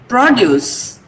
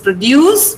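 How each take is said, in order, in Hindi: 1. बल पहले अक्षर पर है। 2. बल दूसरे अक्षर पर है।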